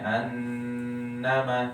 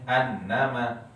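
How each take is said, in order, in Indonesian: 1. Bunyi sengau ditahan dengan dengung penuh. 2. Bunyi sengau dipotong pendek tanpa dengung. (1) "Gunnah maksudnya annama misal" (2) "Tapi dia bacanya annama"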